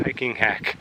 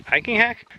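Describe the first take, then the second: First: Hiking hack said flat and falling; hiking hack as a plain statement. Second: Hiking hack? with a high rising question. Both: Shown as a demonstration.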